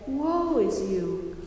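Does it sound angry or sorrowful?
sorrowful. It sounds sorrowful and pleading.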